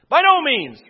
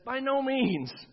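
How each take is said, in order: First: It is said loudly with exclamatory force. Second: It is said in a calm, plain reading voice.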